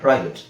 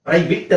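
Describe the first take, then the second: First: The last syllable has a short, reduced vowel. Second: The last syllable has a full, pressed vowel. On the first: The speaker calls it right. "ಸ್ವಲ್ಪ ಸಣ್ಣದಾಗಿ ಅ ತರ ಕೇಳಿಸುತ್ತೆ, but ಅದು ಇ ಅಂತಾನೆ ಹೇಳಬೇಕು" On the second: The speaker calls it wrong. "ಪ್ರೈವೇಟ್ ಅಂತ ನಾವು ಒತ್ತಿ ಹೇಳಲ್ಲ"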